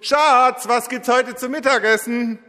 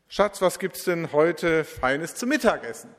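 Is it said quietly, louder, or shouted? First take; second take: shouted; quietly. First: It is called out loudly, nearly shouted. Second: It is said at normal, quiet volume.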